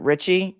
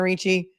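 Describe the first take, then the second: First: The name is said like 'Richie'. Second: The name is said like 'Reechee'. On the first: This is how the defendant says the name. "that defendant pronounces it Richie" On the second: This is how the actress says the name. "the actress is named Christina Ricci"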